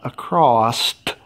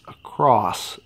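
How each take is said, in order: First: The word ends with an added t sound. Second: The word ends cleanly on an s sound. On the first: The speaker calls it wrong. "It's not acrossed" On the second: The speaker calls it right. "It's across"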